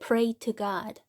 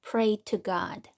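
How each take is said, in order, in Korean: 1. 'to'의 t는 분명한 t입니다. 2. 'to'의 t는 분명한 t입니다.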